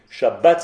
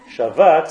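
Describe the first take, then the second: First: The middle consonant is a hard b sound. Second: The middle consonant is a soft v sound. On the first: It names the day of rest. "c'est le nom de quelque chose" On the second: Someone rested. "c'est un verbe, il a chômé"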